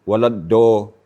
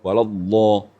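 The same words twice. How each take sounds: First: The consonant is a plain d at the front. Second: The consonant is a drawn-out sound from the tongue's side. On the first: The speaker calls it wrong. "dia akan baca Do" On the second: The speaker calls it right. "Memanjang. Istitalah... Tepi lidah"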